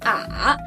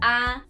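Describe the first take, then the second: First: The pitch falls first and then rises. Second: The pitch stays high and level throughout. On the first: "It first goes down and then turns up" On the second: "this is initial ah with the first tone. It's very steady and stable"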